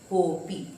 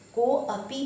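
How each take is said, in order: First: The 'a' is dropped and 'ko' is stressed. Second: The 'a' after 'ko' is pronounced separately. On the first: The speaker calls it right. "को को जोर देगा" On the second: The speaker calls it wrong. "कोअपि नहीं बोलेंगे"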